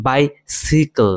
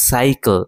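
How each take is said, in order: First: বাইসিকল said slowly with a short si; slow model of বাইসিকল with si in the middle; si pronunciation. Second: সাইকেল with a long sai sound; sai pronunciation. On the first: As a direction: say বাইসিকল as bai-si-kl, not sai. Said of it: "এটা সাই না হয়ে সি হবে". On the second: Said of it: "তখন সাই উচ্চারণ হবে". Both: Shown as a demonstration.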